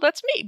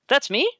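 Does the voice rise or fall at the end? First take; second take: fall; rise. First: The voice falls at the end, like a statement. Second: The voice rises at the end, like a question.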